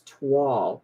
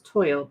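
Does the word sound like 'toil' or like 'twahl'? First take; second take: twahl; toil. First: It is said like twahl, ending in wall. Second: It is said like the word toil. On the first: The speaker calls it right. "like T-wall" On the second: The speaker calls it wrong. "I always thought it was toil"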